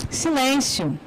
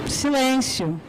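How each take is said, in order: No difference in how they are said.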